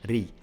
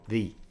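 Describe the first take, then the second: Both takes have the same delivery.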